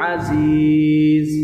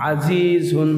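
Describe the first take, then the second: First: The word stops on a bare final consonant. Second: The word ends with an '-un' ending. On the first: The reader pauses at the end of the verse. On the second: The reading continues into the next word.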